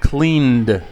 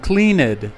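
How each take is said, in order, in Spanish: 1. El final es un solo sonido 'd'. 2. El final es una sílaba separada 'ed'. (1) "o como una D en el caso de clean" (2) "lo pronunciamos como cleaned"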